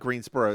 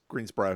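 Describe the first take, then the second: First: The ending is said fully as borough. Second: The ending is clipped, with no borough sound. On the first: The speaker calls it wrong. "it's not Greensboro" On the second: The speaker calls it right. "it's Greensboro"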